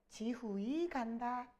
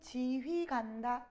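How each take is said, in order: First: The final vowels stay as separate syllables. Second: The final vowels merge into one syllable. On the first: This is how people said it in Middle Korean. "중세국어 당시의 사람들은 지후이 간다 이렇게 했어요" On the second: This is how a modern reader would read it. "우리는 지휘 간다 이렇게 읽겠지만"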